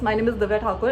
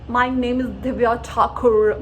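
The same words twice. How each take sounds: First: It is said plainly in the speaker's normal accent. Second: It is said in an exaggerated, faked foreign accent. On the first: The speaker talks the way they normally do. The speaker calls it right. "It's simple" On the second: The speaker is pretending to have an accent. The speaker calls it wrong. "अपना accent fake मत करना and जो मैं अभी कर रही हूँ फिर से मत करना"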